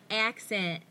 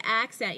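First: Lightly mimicked Southern pronunciation of ACCENT; imitated Southern accent. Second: Said in the usual way. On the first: Host imitating her guest's Southern accent on ACCENT, lightly mimicked. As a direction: say ACCENT with a slight Southern twang. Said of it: "you go, like". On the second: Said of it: "when you say accent".

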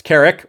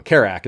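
First: "Carrick" with a short I in the second syllable; corrected pronunciation. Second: "Carrack" with a full A as in "back" in the second syllable; wrong pronunciation. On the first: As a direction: say "Carrick" as CARE-ick. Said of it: "It's Carrick or Car". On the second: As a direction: say "Carrack" as CARE-ack. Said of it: "Carrack is wrong". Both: Shown as a demonstration.

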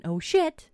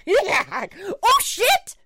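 First: Lightly quoted squeal, pitch raised; a small, higher echo of the shriek; high-pitched retold yelp. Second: Squealed way up high and loud; hammed-up falsetto shriek; very high-pitched yelp. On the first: Storyteller quoting her son's yelp, lightly high-pitched. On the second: Imitating teenage son dive-bombed by a bat, high-pitched shriek. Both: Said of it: "at such a high pitch".

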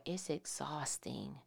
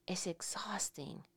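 First: Said in the usual way. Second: Whispered, almost no voice. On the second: Shown as a demonstration. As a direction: breathe the words out in a whisper. Repeated as a whisper.

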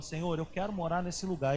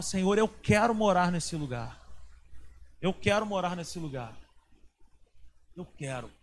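First: Said in the usual way. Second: Pleading, stress on "quero", fading to a murmur at "Eu quero"; earnest retold prayer. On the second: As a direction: beg the Lord, landing on "quero" each time. (súplica insistente com ênfase em "quero", sumindo no fim)

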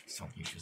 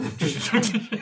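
First: Hushed. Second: Building to a yelled shut up; louder and higher each time; rising shout. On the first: Shushing another player. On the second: Telling player to shut up. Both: Real, not acted.

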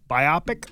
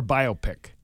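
First: Biopic with stress on OP; bye-OP-ic. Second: Biopic as two parts, BIO pick; BIO-pic. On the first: Cohost asking how biopic is pronounced, bye-OP-ic. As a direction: say biopic as bye-OP-ic, rhyming with myopic. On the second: Cohost offering the other pronunciation of biopic, BIO-pick. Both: Shown as a demonstration. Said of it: "Is it bio".

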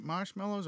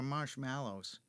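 First: "marshmallows" with MEL in the middle; "marshmallows" with an eh in the second syllable; first pronunciation variant. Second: "marshmallows" with MAL in the middle; "marshmallows" with a short a in the second syllable; second pronunciation variant. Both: Shown as a demonstration. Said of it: "what is it, marshmallows or marshmallows".

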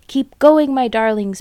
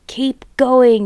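First: High, loud breathless urging; panting urge. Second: A lightly voiced farmer's shout; mild shout. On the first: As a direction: push his family on, out of breath. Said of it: "panted Mister Fox". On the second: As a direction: call out to the digger driver, understated. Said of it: "the fat Boggis shouted". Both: A narrator's reading.

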